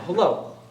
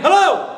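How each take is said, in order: First: It is said at a moderate volume. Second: It is said louder still, the loudest.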